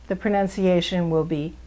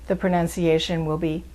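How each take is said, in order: No difference in how they are said.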